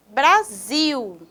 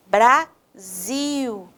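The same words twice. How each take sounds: First: BRASIL in one piece, lengthened SIL; stressed final syllable. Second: BRASIL broken in two, BRA, pause, long SIL; syllable by syllable. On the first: Teacher introducing the next word, BRASIL with long SIL. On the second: Teacher showing students the tonic syllable, BRASIL split slowly. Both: Shown as a demonstration. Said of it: "o zio é a sílaba".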